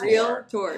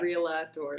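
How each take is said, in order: First: It is said with two syllables, real-tor. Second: It is said with an extra vowel, real-a-tor. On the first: The speaker calls it right. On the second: The speaker calls it wrong.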